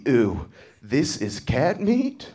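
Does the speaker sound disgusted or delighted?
disgusted. It sounds disgusted and repulsed.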